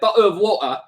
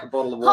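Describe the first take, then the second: First: It is said in a careful British-sounding accent. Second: It is said in a relaxed New Zealand accent. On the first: It takes a lot of effort to say. "think about how much effort it is to say" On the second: It takes little effort to say. "instead of just like"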